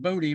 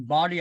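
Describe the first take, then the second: First: The name is pronounced like 'Bodie'. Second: The name is pronounced like the word 'body'. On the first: The speaker calls it wrong. "a lot of people pronounce that Bodie" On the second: The speaker calls it right. "but it's actually Body Island"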